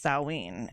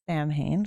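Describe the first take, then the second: First: It is said the holiday's usual way, not as spelled. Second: It is said as spelled, like 'Sam Hain'. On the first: It names the holiday. "Samhain is the holiday on October thirty-first" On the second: It names the character, not the holiday. "I pronounce it Sam Hain on purpose"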